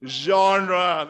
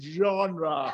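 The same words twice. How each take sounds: First: Said in the usual way. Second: Playful French-accented "Genre". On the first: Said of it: "Let's just say it again". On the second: Shown as a demonstration. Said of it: "Gotta have that French accent".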